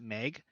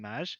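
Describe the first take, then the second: First: The name is said like 'Meg'. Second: The name is said like 'Maj'. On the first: The speaker calls it wrong. "people would like pronounce it Meg" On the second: The speaker calls it right. "it was supposed to be Maj"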